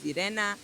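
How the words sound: The name is pronounced the Polish way. "In Polish, my name is Irena"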